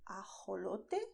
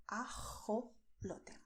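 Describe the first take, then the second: First: "ajolote" with a soft h as in hot; soft English h. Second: "ajolote" slow, with a rasped throat j; strong throaty j. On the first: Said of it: "like you would in English when you say hot". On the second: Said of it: "a stronger sound which comes also from the throat". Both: Shown as a demonstration.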